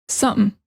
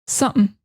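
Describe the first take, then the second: No difference in how they are said.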